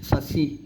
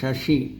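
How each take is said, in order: First: The word uses plain s sounds. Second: The word uses sh sounds. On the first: The speaker calls it wrong. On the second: The speaker calls it right.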